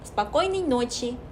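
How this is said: Syllables blur together around one strong stressed syllable. The speaker calls it right. "꼬 찍고 또 나머지도 흘리시면 돼요"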